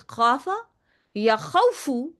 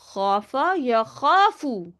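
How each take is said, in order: First: The second word has a w sound before f. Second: The second word has a long a before f. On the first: The speaker calls it wrong. "don't say it like that. We don't say wow with lean" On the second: The speaker calls it right. "We change wow into an aleph"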